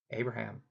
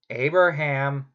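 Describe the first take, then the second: First: A low, much softer call of the name, almost under the breath; hushed call. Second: The name called again, clearly louder and commanding; firmer call. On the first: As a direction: summon him softly, from far above. God calls Abraham, hushed. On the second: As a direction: call him out, demanding an answer. God calls Abraham again, firmer. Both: Acted.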